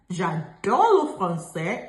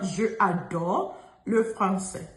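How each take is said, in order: First: The vowel of je is dropped before adore. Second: The vowel of je is kept before adore. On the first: The speaker calls it right. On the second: The speaker calls it wrong. "and not je adore le français"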